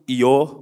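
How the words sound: The word ends in an o vowel. "Kalau Jawa kan itbak"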